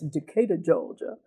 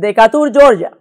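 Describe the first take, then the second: First: It is said in a local American accent. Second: It is said in a Cuban Spanish accent. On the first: "back then, I love to say it's" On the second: "as my mother would say it with her Cuban accent"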